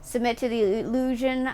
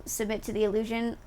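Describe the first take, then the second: First: Said in the usual way. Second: Murmured under the breath; soft muttered read; quiet. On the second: Real, not acted.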